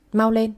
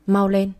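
First: Shouted order. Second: Mock sweet. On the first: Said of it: "mợ cả quát lên". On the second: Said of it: "vui vẻ nói". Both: A narrator's reading.

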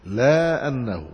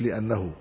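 First: "لا أنه" with a long drawn-out laa, then annahu; slow, deliberate "لا أنه", laa annahu; split into two words. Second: "لأنه" as one word, short first syllable, li-annahu; softer "لأنه" with a short li; run together as one word. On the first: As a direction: stretch "لا" slowly, then say "أنه" separately. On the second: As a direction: say "لأنه" quickly joined, li-annahu. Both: Shown as a demonstration. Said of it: "مش لأنه، لا أنه".

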